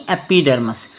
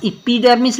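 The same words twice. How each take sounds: First: एपिडर्मस said with a short e at the start; एपिडर्मस, opening vowel as e; correct reading. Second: एपिडर्मिस said with an ee sound at the start; एपिडर्मिस, opening vowel as ee; wrong reading. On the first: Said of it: "अभी मैं आपको बता चुका हूँ". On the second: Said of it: "एपिडर्मिस नहीं". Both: Shown as a demonstration.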